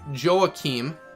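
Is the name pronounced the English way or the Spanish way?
English. The name is said with English sounds. "I always call him Joachim"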